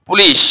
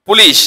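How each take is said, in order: The two takes are said the same way.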